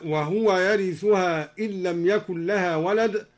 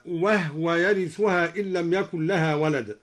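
First: Said in the usual way. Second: وهو said as wahwa, the ha without a vowel; وهو with the هاء unvowelled, wahwa, not wahuwa; silent ha in wahwa. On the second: Shown as a demonstration. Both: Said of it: "سكن الدوري الهاء هكذا".

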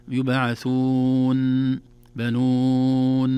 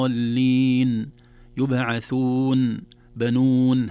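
First: يبعثون held very slowly, the final nun stretched as if doubled; overlong nun. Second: يبعثون chanted slowly, the final nun clear from the nose, not lengthened; correct nasal nun. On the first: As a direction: drag out the nun of بنون like a doubled letter. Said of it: "لا نقول". (إطالة خاطئة للنون كأنها مشددة) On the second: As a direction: recite الضالين slowly with a clean nasal ending. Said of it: "فنقول". (نطق صحيح للنون دون إطالة) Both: Shown as a demonstration.

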